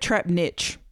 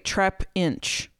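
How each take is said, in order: First: The second part sounds like 'niche'. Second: The second part sounds like 'inch'. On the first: The speaker calls it wrong. "I always say it wrong. I put trap niche" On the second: The speaker calls it right. "trap inch, right?"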